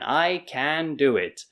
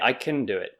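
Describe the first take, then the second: First: The word can has a full, clear vowel. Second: The word can has a reduced schwa vowel. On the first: "So speaking clearly" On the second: "But when we're speaking, usually we say"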